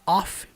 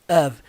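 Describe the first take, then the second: First: The word ends with an f sound. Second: The word ends with a v sound. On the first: The speaker calls it wrong. "Muita gente fala off" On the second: The speaker calls it right. "na verdade leva o tom de of"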